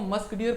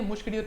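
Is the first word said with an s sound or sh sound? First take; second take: s; sh. First: The first word is said with an s sound. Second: The first word is said with an sh sound. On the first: It is the usual reading of the name. "आप तो इसको मस्क deer पढ़ोगे" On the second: It recalls the word for fragrance. "मैं इसे जानबूझ के मुश्क डियर पढ़ता हूँ"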